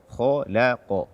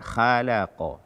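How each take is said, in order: First: The first consonant is heavy and thick. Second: The first consonant is light and thin. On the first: The speaker calls it right. "Kholaqa, kholaqa, bukan khalaqa" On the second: The speaker calls it wrong. "membaca kho dengan tipis"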